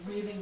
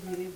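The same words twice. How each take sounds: The two takes are said the same way.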